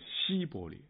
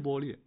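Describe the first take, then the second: First: The first syllable is pronounced xi. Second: The first syllable is pronounced shi. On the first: The speaker calls it wrong. "他们发音是西波列" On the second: The speaker calls it right. "是波列"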